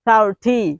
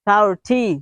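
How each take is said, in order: The two takes are said the same way.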